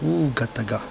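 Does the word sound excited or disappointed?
disappointed. The word is said in a flat, disappointed way. Tonight is dead and boring. "ce soir c'est mort"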